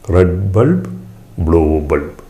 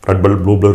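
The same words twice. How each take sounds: First: The phrase is said very slowly. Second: The phrase is said quickly. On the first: "അത് വളരെ സാവധാനം പറയണം" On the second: "ഇത് ഫാസ്റ്റിൽ പെട്ടെന്ന് പറയാൻ കഴിയില്ല"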